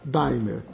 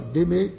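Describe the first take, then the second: First: The name is pronounced as it is written. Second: The name is pronounced the French way. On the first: "como ela é lida" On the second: "Se fala d'aimer"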